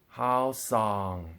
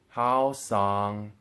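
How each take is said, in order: First: The second syllable carries the fourth tone. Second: The second syllable carries the second tone. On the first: "and so on and so forth" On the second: "the first one as the first tone and the second one as a second tone"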